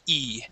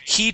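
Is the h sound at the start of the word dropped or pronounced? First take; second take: dropped; pronounced. First: The h sound at the start is dropped. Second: The h sound at the start is pronounced. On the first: "Here I don't" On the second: "here I pronounce it"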